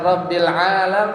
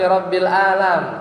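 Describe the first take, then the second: First: The word begins with a throaty ain sound. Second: The word begins with a plain glottal stop. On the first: Lord of the worlds. The speaker calls it right. "bukan Rabbil alam" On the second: Lord of the sick. The speaker calls it wrong. "nggak pakai ain ... ainnya pakai hamzah"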